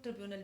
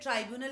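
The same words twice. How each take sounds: First: ट्रिब्यूनल with first syllable as short "trib"; alternative pronunciation. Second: ट्राइब्यूनल with first syllable as "try"; alternative pronunciation. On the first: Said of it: "कुछ लोग ट्रिब्यूनल भी कहते हैं". (ट्रिब्यूनल, पहला अक्षर छोटी इ से "ट्रि" बोलें) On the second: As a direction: say ट्राइब्यूनल with a long "eye" sound after Tr. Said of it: "ट्राइब्यूनल भी कहते हैं". (ट्राइब्यूनल, पहला अक्षर "ट्राइ" बोलें) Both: Shown as a demonstration.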